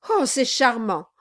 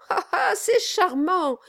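First: Mild, uneasy exclamation; exclaiming. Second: High, put-on "ah, ah" laugh; regaining composure. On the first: Lawyer recovers from his fright, mildly exclaiming. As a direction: exclaim it politely, not yet confident. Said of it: "s'écria Brass". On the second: Lawyer flatters the dwarf, regaining composure with forced delight. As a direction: exclaim it with pitched-up delight. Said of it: "reprenant un peu d'aplomb". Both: A narrator's reading.

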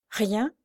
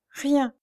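First: "Rien" rising as a question; questioning echo. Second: "rien" high, falling to a close; despairing finality. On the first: Blind girl challenging Pierre's self-blame, questioning echo. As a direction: throw "Rien" back in gentle disbelief. Louise questions his word. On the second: Lame man insisting he is powerless, despairing finality. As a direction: state "rien" as a hopeless, final fact. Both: A narrator's reading.

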